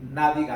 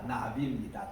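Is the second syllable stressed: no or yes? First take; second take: no; yes. First: The second syllable carries no stress. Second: The second syllable carries the stress. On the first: The speaker calls it wrong. "우리나라의 나비와 같은 그런 발음" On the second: The speaker calls it right. "둘째 그 액센트 있습니다"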